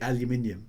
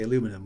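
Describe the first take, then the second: First: It is said with the extra i syllable. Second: It is said without the extra i syllable. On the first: This is how it is said in Britain. "over here we say aluminium" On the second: This is how it is said in America. "you guys say aluminum without the I"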